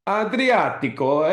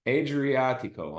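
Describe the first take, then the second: First: "Adriatico" rolled out Italian-style, rising high and slow; Italian pronunciation. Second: "Adriatico" said as AY-dree-ah-tee-koh, flat American vowels; gringo accent. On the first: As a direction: say "Adriatico" like a native Italian, drawn out. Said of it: "it's Italiano, right?". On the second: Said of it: "I'll use my gringo accent there". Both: Shown as a demonstration.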